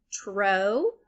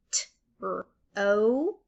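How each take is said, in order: First: Said in the usual way. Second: "T-r-o" as three separate sounds, T, R, OH. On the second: Shown as a demonstration. Teacher sounding out for learners, "T-r-o" one sound at a time. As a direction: pause between each sound of "T-r-o". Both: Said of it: "saying all the sounds individually".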